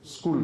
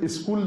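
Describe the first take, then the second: First: The word starts directly with the s sound. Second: A short vowel comes before the s sound. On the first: This is how English speakers say it. The speaker calls it right. "وہ اسکول کہتے ہیں" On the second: English speakers do not say it this way. The speaker calls it wrong. "انگریز اسکول نہیں کہتے"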